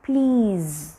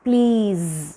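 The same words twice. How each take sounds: No difference in how they are said.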